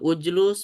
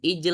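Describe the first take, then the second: First: Both vowels are u. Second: The vowels are i then a.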